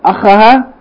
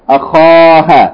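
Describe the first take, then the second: First: The vowel after the kh is short. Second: The vowel after the kh is long. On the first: The speaker calls it wrong. "Instead of" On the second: The speaker calls it right. "we say"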